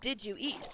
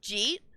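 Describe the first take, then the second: First: Each of the three words is said separately. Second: The words merge into one short syllable. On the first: The speaker calls it right. "that's not a word. It's did you eat" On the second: The speaker calls it wrong. "Michiganders will be like, we don't have an accent, and then ask, Jeet?"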